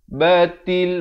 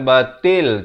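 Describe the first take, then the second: First: The second syllable is pronounced with a ti sound. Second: The second syllable is pronounced with a te sound. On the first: The speaker calls it right. "Ta bari kasrah bunyi ti" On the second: The speaker calls it wrong. "bukan bunyi te"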